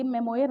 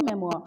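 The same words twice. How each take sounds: First: मेमोयर with the final yar sound spoken out; wrong pronunciation memoir. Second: मेमोआ said as memwa with no final r; correct pronunciation memoir. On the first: Teacher shows students the wrong reading मेमोयर. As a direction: say मेमोयर the way the teacher warns against. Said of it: "ये मेमोयर नहीं पढ़ना है guys इसको". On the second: Teacher gives students the right reading मेमोआ. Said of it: "ये क्या होता है?". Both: Shown as a demonstration.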